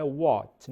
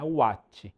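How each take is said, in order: First: "what" said short as "ót", open o, no w glide; "what" with an open o and a final t, no vowel after it; correct what. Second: "what" said with a w glide and an added "tchi" ending, "uátchi"; Brazilian-style "what" with a vowel tacked on after the t; the way to avoid saying "what", as "uátchi"; wrong what. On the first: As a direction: say "what" like "ót", with the t clipped. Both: Shown as a demonstration. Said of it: "não é what".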